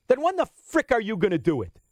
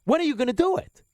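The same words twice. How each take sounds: First: Said in the usual way. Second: Rising exasperated "When are you gonna do it?"; exasperated demand. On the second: Real, not acted. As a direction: push the question harder. Repeats demand, raised.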